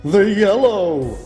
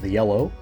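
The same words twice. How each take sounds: First: It is said loudly with dramatic energy. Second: It is said in a plain, undramatic way. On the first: The speaker calls it right. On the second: The speaker calls it wrong.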